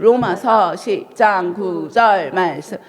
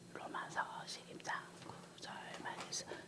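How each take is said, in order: First: It is said in a normal, louder voice. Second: It is said in a quiet voice.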